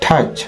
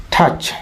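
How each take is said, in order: First: "টাচ" with a strongly aspirated t, thach; correct English "টাচ". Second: "টাচ" with unaspirated t; old "টাচ" pronunciation. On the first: Teacher correcting viewers, "টাচ" as aspirated thach. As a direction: puff the t in "টাচ". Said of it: "কিন্তু এটা হবে". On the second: Teacher showing the earlier habit, "টাচ" with plain t. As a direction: say "টাচ" with no puff on t. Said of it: "আমরা আগে জানতাম টাচ". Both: Shown as a demonstration.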